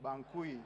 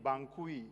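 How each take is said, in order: First: The word is said as two syllables. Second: The same.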